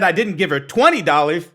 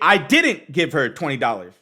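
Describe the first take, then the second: First: The stress is on the word twenty. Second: The stress is on the word didn't.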